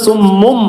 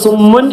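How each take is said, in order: First: The word ends with an m sound. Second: The word ends with an n sound. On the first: "നീ എന്ന് പറയാതെ ഉം" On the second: "ഉൻ എന്ന് പറഞ്ഞ് ഉച്ചരിച്ചല്ലോ"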